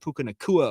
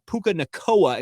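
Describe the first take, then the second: First: The surname's second syllable sounds like 'kua'. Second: The surname's second syllable sounds like 'koa'. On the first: The speaker calls it right. "instead of" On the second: The speaker calls it wrong.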